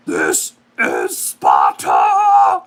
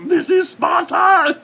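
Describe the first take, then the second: First: Deep, very slow bellowing war cry; deep drawn-out Spartan battle roar; Sparta shout. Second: Very high, loud squeaky puppet shout; high Muppet-voiced Sparta shout. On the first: Retold or imitated. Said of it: "who just had to hear that recreation". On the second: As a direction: shout it like a tiny felt puppet. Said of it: "I sound like a Muppet".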